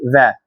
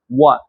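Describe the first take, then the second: First: It starts with a V sound. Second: It starts with a W sound. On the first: The speaker calls it wrong. "if you're opening your mouth like uh, this this manner, it will be va. Va will be wrong" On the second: The speaker calls it right. "If you're opening like a O shape, wa"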